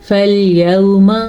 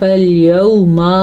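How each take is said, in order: First: The vowel after the m is kept short. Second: The vowel after the m is drawn out long. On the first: The speaker calls it right. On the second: The speaker calls it wrong.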